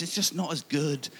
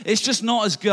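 First: Said in the usual way. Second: Louder, stressing "just" and "good"; emphatic insistence. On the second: Shown as a demonstration. Complaining about Domino's cookie dough, louder insistence. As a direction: lean hard on "just" to insist it's worse. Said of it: "I'm sorry".

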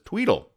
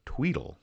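First: High chirpy tweedle ring; high-pitched tweedle ring; phone ring. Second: Soft ringing tweedle mimicked; phone ring. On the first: Retold or imitated. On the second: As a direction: coo it like a quiet phone. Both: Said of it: "That's the sound effect".

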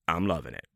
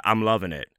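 First: "I'm loving it" repeated lower and much softer, half to himself; soft echo. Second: Said in the usual way. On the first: Shown as a demonstration. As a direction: drop it low and quiet like an afterthought.

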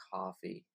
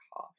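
First: Breathy whisper of coffee. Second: Said in the usual way. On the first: Shown as a demonstration. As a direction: whisper the word. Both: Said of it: "says coffee several ways".

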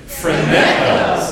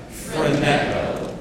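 First: Phroneo said louder, playful and bright-spirited; having fun. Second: Said in the usual way. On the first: Shown as a demonstration. Pastor leading church to say phroneo for fun, louder. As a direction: toss out phroneo like it's a game. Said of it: "Say it like you're having a lot of fun". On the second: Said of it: "Say it one more time".

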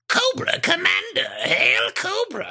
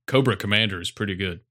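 First: High, slow, raspy villain screech; Cobra Commander impression. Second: Said in the usual way. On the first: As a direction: stretch it out like the cartoon villain. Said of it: "his, uh, Cobra Commander is pretty good". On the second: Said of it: "I can't even do it like he does".

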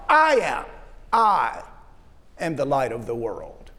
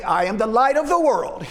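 First: "I am" set apart, with a pause before "am the light of the world"; stress on I AM. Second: Said in the usual way. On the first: Shown as a demonstration. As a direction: lean on "I am", then let "the light of the world" fall away. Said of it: "puts the emphasis on the first part". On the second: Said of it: "we might read that and say".

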